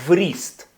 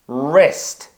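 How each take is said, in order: First: The word begins with a w sound. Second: The word begins with an r sound. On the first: The speaker calls it wrong. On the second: The speaker calls it right.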